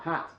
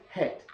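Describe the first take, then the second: First: The vowel is an open short 'a'. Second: The vowel is raised, close to 'e'. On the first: This is the newer way of speaking. "the short A, that ah" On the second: This is the older, clipped way of speaking. "A lot of p- people from this part of the world will still say het"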